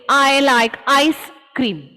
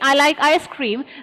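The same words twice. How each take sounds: First: Ice and cream are split apart with a break. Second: Ice and cream are linked smoothly together. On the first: The speaker calls it wrong. "than say" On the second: The speaker calls it right. "It is easier for me to say"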